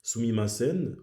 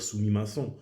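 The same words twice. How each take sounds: First: "sumimasen" ending on a full, sounded n; doubled final N. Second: "sumimasen" ending in a French nasal "-san", no n sounded. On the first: Explaining the Japanese word, "sumimasen" with a doubled final n. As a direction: let the doubled n ring at the end of "sumimasen". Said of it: "il est doublé". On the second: Showing how not to say it, "sumimasen" with a French nasal ending. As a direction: swallow the final n of "sumimasen" into a nasal vowel. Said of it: "Je vais pas dire". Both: Shown as a demonstration.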